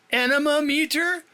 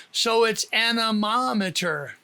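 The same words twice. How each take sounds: First: "Anemometer" said as a-NE-mo-meter, rising in surprise; puzzled mispronunciation. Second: "anemometer" as a-ne-MOM-e-ter, stress on MOM; correct pronunciation. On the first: Retold or imitated. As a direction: question the odd word "Anemometer". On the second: Shown as a demonstration. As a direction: say "anemometer" the right way, clearly. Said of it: "The emphasis is on the first syllable of Mama".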